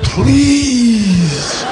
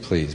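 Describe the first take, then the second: First: It is said as a desperate plea. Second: It is said flatly, without pleading.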